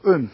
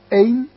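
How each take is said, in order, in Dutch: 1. Het woord is onbeklemtoond met een zwakke klinker. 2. Het woord is beklemtoond met een volle klinker. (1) "met en zonder accentjes" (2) "met en zonder accentjes"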